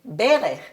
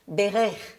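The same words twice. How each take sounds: First: The stress is on the first syllable. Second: The stress is on the second syllable. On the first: It means a knee. "the first syllable is accented" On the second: It means blessed. "The first word has a second syllable accented"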